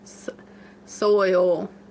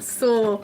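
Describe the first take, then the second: First: The word is said with an 'oy' vowel. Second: The word is said with an 'oh' vowel. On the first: This takes deliberate effort for the speaker. "That sounds like a lot of work" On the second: This is the speaker's natural way of saying it. "I don't know any other way to say it"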